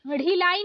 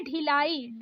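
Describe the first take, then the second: First: ढिलाई opening on flapped ढ़; wrong flapped ढ़. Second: ढिलाई opening on aspirated DH; correct stopped ढ. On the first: Teacher showing learners the mistake, flapped ढिलाई. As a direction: flick into ढिलाई. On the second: Teacher correcting learners, stopped ढिलाई. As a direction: start ढिलाई with firm ढ. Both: Shown as a demonstration. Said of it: "नहीं होता है".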